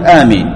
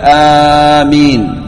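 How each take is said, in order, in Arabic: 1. تُقصَر الحركة الأولى فتُنطق قصيرة. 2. تُمَدّ الحركة الأولى فتُنطق طويلة. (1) "على وزن فعيل فتقول آمين، تقول آمين، هذا القصر" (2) "على وزن فاعيل تقول آمين بالمد"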